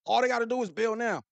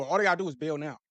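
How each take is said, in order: First: Higher, punched repeat to drive the point home; emphatic repeat to the viewers. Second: Said in the usual way. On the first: Real, not acted. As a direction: hit it again harder.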